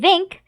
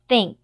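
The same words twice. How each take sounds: First: It starts with a hard, voiced th sound. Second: It starts with a soft, voiceless th sound. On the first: The speaker calls it wrong. "we don't say think" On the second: The speaker calls it right. "We say think"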